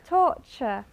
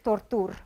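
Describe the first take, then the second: First: The middle consonant is a ch sound. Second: The middle consonant is a plain t sound. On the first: The speaker calls it right. "ch, torture" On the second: The speaker calls it wrong. "everyone says tortur or something like that"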